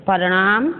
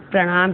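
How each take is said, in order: First: प्रणाम split as "pa-ra-naam"; mispronounced प्रणाम. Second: Said in the usual way. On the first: Shown as a demonstration. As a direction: put a vowel between p and r in प्रणाम, end rising. (प्रणाम को गलत "परणाम" बोलना) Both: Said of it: "प्रणाम शुद्ध".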